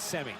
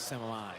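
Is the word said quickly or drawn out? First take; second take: quickly; drawn out. First: The word is said short and quick. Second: The word is drawn out and dramatized. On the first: The moment calls for speed. "When you need it to be quick" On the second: The moment calls for drama. "When you want to really like drama- dramatize it, draw it out"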